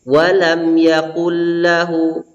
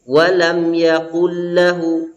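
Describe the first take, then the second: No difference in how they are said.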